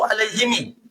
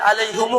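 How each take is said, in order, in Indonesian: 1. Kata ini berakhir dengan bunyi himi. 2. Kata ini berakhir dengan bunyi humu. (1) "Enggak boleh" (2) "Enggak boleh"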